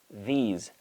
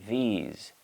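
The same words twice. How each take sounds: No difference in how they are said.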